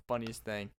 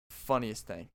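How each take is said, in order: Both takes have the same delivery.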